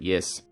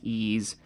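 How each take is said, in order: First: It is said like 'yes', with a y-sound. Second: It is said like 'ease', with no y-sound. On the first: It is the easy way to say it. "I'm just going to pronounce it yes" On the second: Other people say it this way. "I've heard people say it's pronounced ease"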